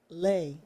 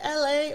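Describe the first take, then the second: First: The name is said as one single syllable. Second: The name is said as two separate letters. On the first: "or is it Lay?" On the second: "Is it L A"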